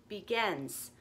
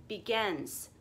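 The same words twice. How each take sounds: No difference in how they are said.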